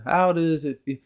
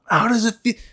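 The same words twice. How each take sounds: First: It is delivered gently and in a laid-back way. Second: It is delivered forcefully and intensely.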